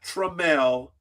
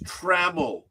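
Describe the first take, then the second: First: The first syllable sounds like 'trum'. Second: The first syllable sounds like 'tram'. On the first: The speaker calls it wrong. "not Trammell. ... How do you get Trum out of T R A M?" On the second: The speaker calls it right. "It's Trammell"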